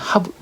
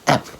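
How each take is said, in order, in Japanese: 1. その単語はhを含む完全な形で発音される。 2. その単語は弱い形で、hはない。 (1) "have もの強い時で" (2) "弱い時は"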